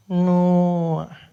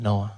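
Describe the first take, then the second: First: Loud, higher, drawn-out echo; receptionist echoing. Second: Said in the usual way. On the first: Acted. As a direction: turn the name over slowly, louder. Receptionist echoes the name.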